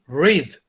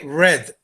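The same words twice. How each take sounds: First: The vowel is a long 'ee' sound. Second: The vowel is a short 'eh' sound. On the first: It is the present tense. "Aquí suena más la I" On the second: It is the past tense. "Acá en pasado suena más como E"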